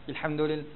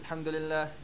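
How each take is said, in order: No difference in how they are said.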